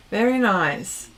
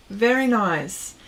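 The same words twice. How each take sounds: The two takes are said the same way.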